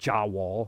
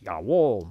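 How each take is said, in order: First: It begins with an English J sound. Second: It begins with a Y sound. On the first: The speaker calls it wrong. "is not Jawohl" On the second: The speaker calls it right. "it's Jawohl"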